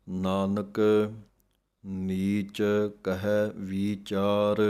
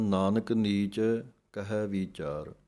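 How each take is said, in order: First: Nanak, then a clear pause, then ਨੀਚ ਕਹੈ ਵੀਚਾਰ slowly; pause after Nanak. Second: Nanak ਨੀਚ run together with no pause; run-on wrong reading. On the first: Teacher showing students the correct pause after Nanak, slow and deliberate. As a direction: stop briefly after Nanak before going on. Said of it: "Nanak ਪਦ ਦੇ ਉੱਤੇ ਵਿਸਰਾਮ ਹੈ". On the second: Teacher imitating the common mistake of running Nanak ਨੀਚ together. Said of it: "ਕਈ ਪੜ੍ਹ ਜਾਂਦੇ ਹਨ". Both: Shown as a demonstration.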